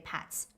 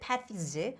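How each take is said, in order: First: The word is said with a native pronunciation. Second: The word is said with a non-native pronunciation. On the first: The speaker calls it right. "native speakers would say pats" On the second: The speaker calls it wrong. "You said paths"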